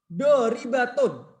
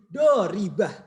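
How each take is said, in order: First: The word ends with a full -tun ending. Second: The word ends softly with an h sound. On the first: The word is read without stopping on it. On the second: The reader stops on this word.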